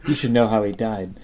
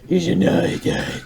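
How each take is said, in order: First: It is said in a plain, normal voice. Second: It is said in a Dark Knight Batman voice.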